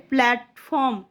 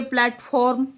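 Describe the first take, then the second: First: प्लेटफॉर्म said naturally as 'plet-pom'; spoken pronunciation. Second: प्लेटफॉर्म said as spelt, with a full 'form' ending; spelling pronunciation. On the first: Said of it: "और बोलेंगे". (बोलचाल वाला उच्चारण, प्लेटफॉर्म को 'प्लेट-पॉम' जैसा) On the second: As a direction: read प्लेटफॉर्म letter by letter as written, 'plat-form'. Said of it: "इसको हम लिखेंगे". (लिखावट वाला उच्चारण, प्लेटफॉर्म को 'प्लाट-फॉर्म' जैसा) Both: Shown as a demonstration.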